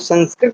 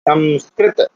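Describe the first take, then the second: First: The first nasal sounds like an 'n'. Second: The first nasal sounds like an 'm'. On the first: The speaker calls it wrong. "कई लोग संस्कृत बोलते हैं, थोड़ा अशुद्ध है" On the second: The speaker calls it right. "माँ है ना"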